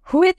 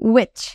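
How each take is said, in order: First: It begins with a breathy h sound. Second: It begins with a plain w sound. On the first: The speaker calls it wrong. "হুইচ না" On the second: The speaker calls it right. "এইসবে আমি কিন্তু এই যে মাঝের এইচটা রয়েছে এইগুলোর উচ্চারণ কিন্তু আমি করিনি"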